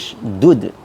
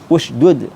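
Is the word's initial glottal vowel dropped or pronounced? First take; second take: dropped; pronounced. First: The opening glottal vowel is dropped entirely. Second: The opening glottal vowel is clearly pronounced. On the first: "hilang dhammahnya hamzah u dari ushdud" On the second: "yang dhammah seperti ushdud"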